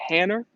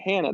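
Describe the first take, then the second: First: The name ends with an added r sound. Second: The name ends in a plain ah vowel. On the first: "they'd say Hanner" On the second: "they wouldn't say Hannah"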